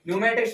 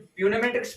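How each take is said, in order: First: The word begins with an n sound. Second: The word begins with a p sound. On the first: The speaker calls it right. "न्यूमेटिक्स पढ़ रहे हैं हम" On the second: The speaker calls it wrong. "इसमें प्यूनेमेटिक्स पढ़ रहे हैं"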